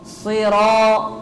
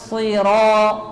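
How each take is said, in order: The two takes are said the same way.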